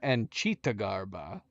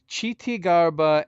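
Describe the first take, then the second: First: The first word ends in an 'ah' sound. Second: The first word ends in an 'ee' sound. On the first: The speaker calls it wrong. "It's not cheetah though" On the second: The speaker calls it right. "We found Chiti"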